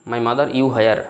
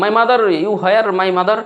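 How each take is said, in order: First: Said in the usual way. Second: "My mother, you where, my mother?" called high and drawn out; calling out to mother. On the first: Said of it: "হ্যাঁ". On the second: Shown as a demonstration. Hungry child calling for mother in broken English, high and drawn out. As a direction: call for mom across the house, high and slow. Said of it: "আপনি যে বলেন".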